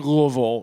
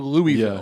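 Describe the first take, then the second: First: The first part is reduced and run together. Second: The first part is said like the name Louis. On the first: This is how it is commonly said locally. The speaker calls it wrong. "it shouldn't be Louisville" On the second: The town was named after a king called Louis. The speaker calls it right. "It should be Louisville ... named after a fucking King Louis"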